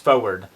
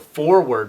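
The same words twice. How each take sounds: First: The first R sound in the word is dropped. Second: Both R sounds in the word are pronounced.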